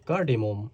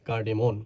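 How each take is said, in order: First: The word ends with an m sound. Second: The word ends with an n sound. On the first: The speaker calls it wrong. "Spelling এর সময় এম ও এম হবে" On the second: The speaker calls it right. "এটা কিন্তু কার্ডেমন উচ্চারণ হবে"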